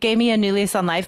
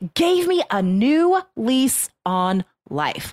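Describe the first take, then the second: First: The phrase is rushed through quickly. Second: The phrase is drawn out slowly. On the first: The speaker calls it wrong. "So don't do this" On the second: The speaker calls it right. "that's quite a slow way to say that, but that's natural"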